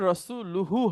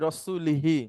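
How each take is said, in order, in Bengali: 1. শব্দটি শেষ হয়েছে স্বরধ্বনি u-hu দিয়ে। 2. শব্দটি শেষ হয়েছে স্বরধ্বনি i-hi দিয়ে। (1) "এইখানে রসুলুহু হবে, যেটা এখন আছে" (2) "এইভাবে করে পড়ছিলেন ... যেটাতে অর্থটা উল্টো হয়ে যাবে"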